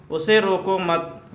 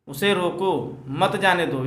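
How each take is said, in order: First: "उसे रोको मत" run together as one phrase, then stop; pause after मत. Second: "उसे रोको", a short break, then "मत जाने दो"; pause after रोको. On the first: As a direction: join मत onto रोको and break after it. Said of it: "उसके बाद दोस्तों कामा लगा हुआ है". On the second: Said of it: "यहाँ कामा लगा हुआ है". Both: Shown as a demonstration.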